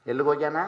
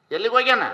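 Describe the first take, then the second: First: Low, softer question with ಎಲ್ಲಿಗೆ stressed; ಎಲ್ಲಿಗೆ stressed in a hushed, low question. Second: Fuller repeat with ಹೋಗ್ಯಾನ stressed and falling; ಹೋಗ್ಯಾನ stressed with a falling end. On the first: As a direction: ask it quietly, leaning on ಎಲ್ಲಿಗೆ. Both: Shown as a demonstration.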